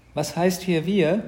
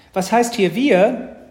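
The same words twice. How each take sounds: First: Loud, slow challenge with raised pitch; object, leaning on WIR; drawn-out, miffed boy; indignant brother. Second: High, loud, drawn-out retort; pitched-up, slow protest; indignant little sister. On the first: Acted. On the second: A narrator's reading. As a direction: throw it back like a miffed little girl. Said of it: "entgegnete Mathilda".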